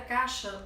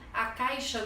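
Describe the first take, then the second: First: The 'ai' diphthong is reduced to a plain vowel. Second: The 'ai' diphthong is pronounced in full.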